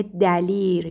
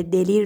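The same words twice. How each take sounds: First: دلیر said as dalir, with a short a in the first syllable; the usual everyday dalir; common mispronunciation. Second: دلیر said as delir, with a short e in the first syllable; the correct delir; correct pronunciation. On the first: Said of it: "دلیر که دلیر درستشه". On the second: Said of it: "دلیر درستشه". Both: Shown as a demonstration.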